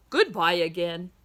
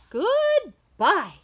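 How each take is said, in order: First: Said in the usual way. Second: Much higher, a little louder farewell; high character goodbye. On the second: Acted. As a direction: sing the goodbye up high in another voice. Repeated goodbye exchange.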